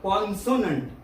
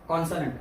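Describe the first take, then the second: First: The middle syllable has a full 'o' vowel. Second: The middle syllable has a reduced, weak vowel. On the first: The speaker calls it wrong. "तुम्ही म्हणाल कॉन्सोनंट" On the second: The speaker calls it right. "तो कॉन्सो नसून तो आहे कॉन्सनंट"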